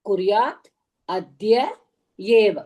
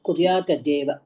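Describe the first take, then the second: First: The three words are said separately. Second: The three words run together quickly as one.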